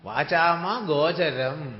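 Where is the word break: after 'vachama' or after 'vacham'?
after vachama. The words split after 'vachama', then 'gocharam'. The reader does not know the meaning. The speaker calls it wrong. "അർത്ഥം അറിയാത്തപ്പോൾ നമ്മൾ വായിക്കുന്നത് എങ്ങനെയാണ്?"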